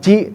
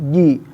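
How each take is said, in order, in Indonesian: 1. Konsonan pertama punya bunyi mendesis. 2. Konsonan pertama tidak punya bunyi mendesis. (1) "bukan ci" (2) "tapi ji"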